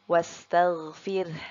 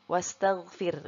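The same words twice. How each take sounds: First: A faint vowel follows r, then an audible h. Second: The word ends on r with no h. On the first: The speaker calls it right. "kita tambahkan huruf E ya, namun secara samar" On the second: The speaker calls it wrong. "Kalau seperti itu, huruf H-nya jadi hilang"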